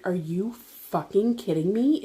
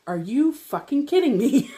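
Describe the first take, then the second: First: Slow, drawn-out disbelief at usual volume; incredulous thought. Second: Higher-pitched, incredulous retold outburst; acting out fed-up disbelief, pitch swinging up; exasperated outburst. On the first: Retold or imitated. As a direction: think it aloud in slow, contained disbelief. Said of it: "that was my thoughts". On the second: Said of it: "I'm crying and screaming at him".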